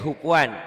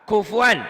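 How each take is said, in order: First: The word begins with an H sound. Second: The word begins with a K sound. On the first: The speaker calls it wrong. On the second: The speaker calls it right.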